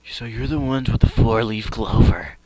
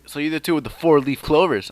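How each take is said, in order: First: The villain's voice sounds menacing. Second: The villain's voice is plain, not menacing.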